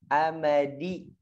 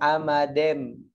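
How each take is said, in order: First: The last vowel sounds like 'i'. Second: The last vowel sounds like 'e'. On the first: The speaker calls it right. "Harusnya dibaca i, dibaca e" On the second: The speaker calls it wrong. "Jangan amadem"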